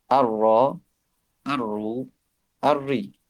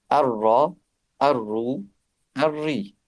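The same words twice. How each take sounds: The two takes are said the same way.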